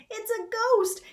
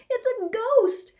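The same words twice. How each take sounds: First: High, loud frightened shriek on ghost; terrified scream. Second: Even higher and louder panicked shriek; terrified scream. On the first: Two boys fleeing the ghost, screaming high. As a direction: scream as you run. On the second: Boys screaming again as they run, higher still. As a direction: shriek it again as you flee. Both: A narrator's reading. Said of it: "they both screamed as they fled".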